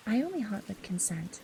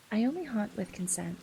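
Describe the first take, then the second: No difference in how they are said.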